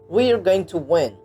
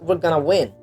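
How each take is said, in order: First: 'Going to' is said fully and separately. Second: 'Going to' blends into one reduced form.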